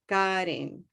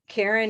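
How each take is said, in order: First: The name is said with a Spanish pronunciation. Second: The name is said with an English pronunciation. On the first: "when I go to Mexico... Karen becomes Karin" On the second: "my name is Karen in English"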